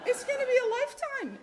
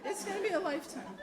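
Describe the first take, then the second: First: High, loud and fast, laughing; storyteller laughing at her own shock; laughing exaggeration. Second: Laughing repeat. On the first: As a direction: burst out with it, still reeling. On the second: Repeats more softly. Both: Real, not acted.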